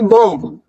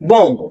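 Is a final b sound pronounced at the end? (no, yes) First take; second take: yes; no. First: The word ends with a b sound. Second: The word ends on the m sound. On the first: The speaker calls it wrong. "ना कि बॉम्ब। बॉम्ब नहीं बोलना, last में बी नहीं बोलना" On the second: The speaker calls it right. "आपको सिर्फ बॉम बोलना है"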